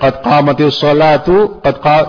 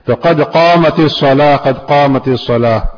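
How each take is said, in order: First: A vowel joins salah smoothly to the next word. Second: Salah ends in a silent stop before the next word. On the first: The speaker calls it wrong. "یا تو نہیں پڑھا جائے ... یہ غلط ہے" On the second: The speaker calls it right. "ہر کلمے کو آخر میں ساکن پڑھیں گے, جزم دیں گے"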